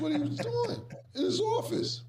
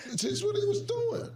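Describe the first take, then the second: First: Words breaking into high laughter; laughing. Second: High, slow, teary laughter; wheezing laugh. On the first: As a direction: laugh it out, can't hold it. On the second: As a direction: squeeze it out slowly through laughter. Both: Real, not acted.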